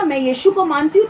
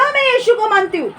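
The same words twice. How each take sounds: First: Said in the usual way. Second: "मैं यीशु को मानती हूँ" said higher and proud; confident public confession of faith; bold declaration. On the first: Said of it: "अरे तब आप बोलो ना". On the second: Shown as a demonstration. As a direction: declare it boldly, pitch raised. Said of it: "तो बोलो".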